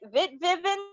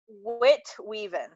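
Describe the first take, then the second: First: The second word begins with a V sound. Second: The second word begins with a W sound.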